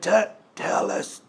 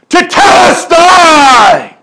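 First: It is said weakly, in a feeble voice. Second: It is said loudly, in a triumphant voice.

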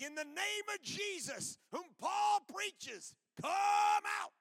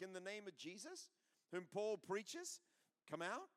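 First: The voice falls firmly at the end. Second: The voice rises at the end like a question. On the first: The speaker commands with authority. "say something with authority" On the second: The speaker tries to sound less confrontational. "with like a question on the end of their voice"

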